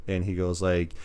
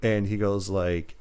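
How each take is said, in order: Both takes have the same delivery.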